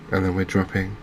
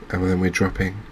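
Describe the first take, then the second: No difference in how they are said.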